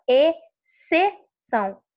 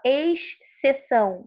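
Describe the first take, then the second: First: "exceção" as e-ce-ção, X silent; correct pronunciation. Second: "exceção" with the X sounded, esh-ceção; wrong pronunciation. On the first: Teacher modelling it for students, "exceção" with silent X. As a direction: split "exceção" slowly into e, ce, ção. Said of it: "O som do X não sai". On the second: Teacher showing what not to say, "exceção" with the X pronounced. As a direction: put a hissed X before the C in "exceção". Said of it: "você não fala exceção". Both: Shown as a demonstration.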